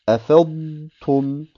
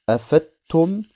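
First: The Dad sound is clearly heard before Ta. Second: The Dad sound is not clearly heard before Ta. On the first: The speaker calls it right. "Das Dad muss man ganz eindeutig hören" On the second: The speaker calls it wrong. "Es heißt nicht"

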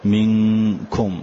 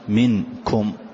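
First: The n is hidden with a nasal hum. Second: The n is pronounced clearly and separately. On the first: The speaker calls it right. "فجعلته وسطا بين الإظهار وبين الإدغام، فقلت مثلا" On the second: The speaker calls it wrong. "ما قلت منكم"

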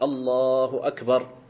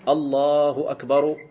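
First: The last word ends with no vowel. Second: The last word ends with a case vowel. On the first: The speaker calls it right. "وإنما تقول الله أكبر" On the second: The speaker calls it wrong. "فلا تقول في الأذان الله أكبر، لا"

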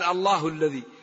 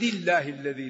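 First: The word Allah ends with a u vowel. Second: The word Allah ends with an i vowel. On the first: The reader paused before this phrase. "إذا قال صراط العزيز الحميد رفع" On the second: The reader joined it to the preceding words. "وإذا وصل ... جر اسم الجلالة"

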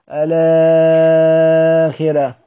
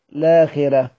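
First: The word begins with a vowel before the l. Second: The word begins directly with the l sound. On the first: "إذا بدأنا بالألف فيها أوجه البدل" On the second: "لو بدأنا باللام ما فيهاش إلا القصر"

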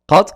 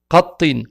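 First: The word ends on a bare final consonant. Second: The word ends with an added 'in' sound. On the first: "il y a une sukun. Donc, il n'y a pas de voyelle" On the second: "Ici avec al-kasra à la fin"

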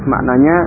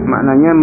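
No difference in how they are said.

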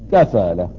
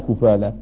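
First: The first syllable has an 'a' vowel. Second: The first syllable has a vowel other than 'a'. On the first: The speaker calls it right. "بفتح الكاف" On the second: The speaker calls it wrong. "ولا كفالة"

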